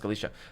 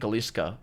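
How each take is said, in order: First: No k sound comes before the final vowel. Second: A k sound comes before the final vowel. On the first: The speaker calls it right. "It's pronounced Kalisha" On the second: The speaker calls it wrong. "It's written Kalishka, but it's not"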